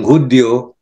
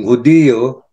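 First: Hudyo as two syllables, HUD-yo; Tagalog spelling form. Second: Hudiyo as three syllables, hu-DI-yo; I-O form. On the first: Contrasting the spellings, Hudyo in two syllables. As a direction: glide the "dyo" in Hudyo as one syllable. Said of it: "Hindi tayo nag-i-spell ng". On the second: Contrasting the spellings, Hudiyo with a full stressed I. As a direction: give the "di" in Hudiyo its own beat. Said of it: "eh yun, I O". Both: Shown as a demonstration.

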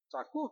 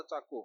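First: चाकू jumping much higher, rising; shocked echo. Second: Said in the usual way. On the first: Acted. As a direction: repeat चाकू as an alarmed question. Uncle echoes in shock.

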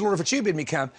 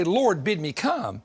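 First: Quicker, run-together quote; doubting request. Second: Slow, drawn-out plea; confident request. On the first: Preacher quoting what Peter really said, quicker conditional plea. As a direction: say it straight through with the condition in. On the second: Preacher quoting what Peter didn't say, slow and sure. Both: Retold or imitated.

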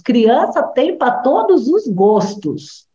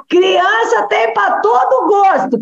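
First: Said in the usual way. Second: Higher and slower, leaning on todo; raised, drawn-out restatement; emphatic repeat. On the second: Shown as a demonstration. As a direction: stress todo gosto as the punchline.

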